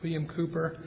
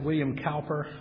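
First: The surname begins with a coo sound. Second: The surname begins with a cow sound. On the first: The speaker calls it right. "But it's pronounced Cooper" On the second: The speaker calls it wrong. "Most people pronounce it William Cowper because it's spelled C-O-W-P-E-R"

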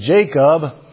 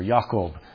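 First: The name begins with a J sound. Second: The name begins with a Y sound. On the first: This is how English speakers say it. "We say J, and so we say the name Jacob" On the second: This is how German speakers say it. "they pronounce the J, the letter J, with a Y sound, like Johannes or Jakob"

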